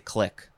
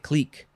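First: The vowel is short, rhyming with 'stick'. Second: The vowel is long, rhyming with 'seek'. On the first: "I think I say click" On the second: "You could also say clique"

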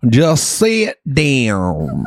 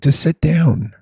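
First: It is said in a country accent. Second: It is said in a plain, neutral accent.

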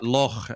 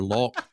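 First: The word ends in a throaty rasping sound. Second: The word ends in a hard k sound. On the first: The speaker calls it right. "But loch, you've got to be able to with that" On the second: The speaker calls it wrong. "if they say lark or loch, no, they're doomed"

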